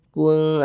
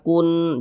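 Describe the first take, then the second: First: The final n is hidden and held nasally. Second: The final n is pronounced fully and clearly. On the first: The speaker calls it right. "bunyi nunnya kita samarkan. Kemudian kita dengungkan" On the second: The speaker calls it wrong. "bunyi nunnya tuh jelas sempurna kun, jangan"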